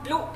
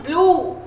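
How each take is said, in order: First: ब्लू clipped short and soft; ब्लू low, quick, not stretched. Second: ब्लू with a stretched "oo"; ब्लू held long and falling. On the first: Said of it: "ऐसे नहीं बोलते". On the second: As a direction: draw out the vowel in ब्लू. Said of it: "हम उसको थोड़ा खींच रहे हैं". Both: Shown as a demonstration.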